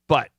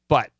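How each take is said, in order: First: The vowel is short and forceful. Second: The vowel is short and forceful.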